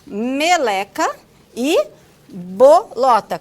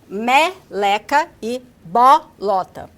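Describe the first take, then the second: First: The vowels before the stress are closed. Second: The vowels before the stress are open. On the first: This is how people in the southern capital say it. "Aqui nós falamos" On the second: This is how the northeastern student says it. "Soando algo como"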